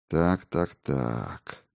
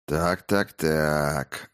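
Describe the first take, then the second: First: Fading to a low, quiet menace; ominous drawl. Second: Slow, menacing, quieter drawl; ominous drawl. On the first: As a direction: let the words sink into a threatening hush. Prince menaces captured Soyka. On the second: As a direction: draw out each word with quiet menace. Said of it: "зловеще протянул царевич". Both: Acted.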